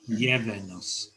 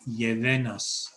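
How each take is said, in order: First: The stress falls on the first syllable. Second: The stress falls on the last syllable. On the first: The speaker calls it right. "stress on the front" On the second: The speaker calls it wrong. "I just put it on the back"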